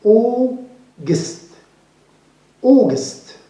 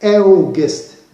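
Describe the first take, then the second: First: August opened with a long "aw" vowel, higher; correct pronunciation. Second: August wrongly opened with an "a-oo" vowel; incorrect pronunciation. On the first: Teacher correcting learners, "August" with a long "aw". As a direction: say "August" as "AW-gust", drawn out first. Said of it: "We say". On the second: Teacher warning learners, "August" with a mistaken opening vowel. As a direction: mispronounce "August" with a spelled-out "au" sound, louder. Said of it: "in here it is not". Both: Shown as a demonstration.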